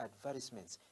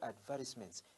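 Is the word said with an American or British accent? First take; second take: British; British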